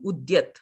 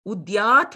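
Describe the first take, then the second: First: The second-syllable vowel is kept short. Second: The second-syllable vowel is held long. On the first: It means the rising sun. "if we said the a, it will become Udyat" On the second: It is a blessing: may he say. "Udyat means um, benediction"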